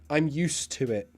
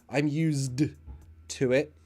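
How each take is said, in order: First: The D sound in 'used' is not pronounced. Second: The D sound in 'used' is clearly pronounced. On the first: The speaker calls it right. "Remember what I said about the pronunciation" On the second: The speaker calls it wrong. "we don't pronounce the D like"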